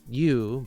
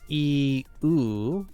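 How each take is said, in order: First: The two vowels are blended into one sound. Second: The two vowels are said as separate sounds. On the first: "they get blended together, so it does sound like the letter U" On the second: "Technically, it's like e u"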